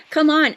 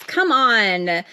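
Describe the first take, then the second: First: Urgent come on. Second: Said in the usual way. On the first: Real, not acted. Urging herself on, louder.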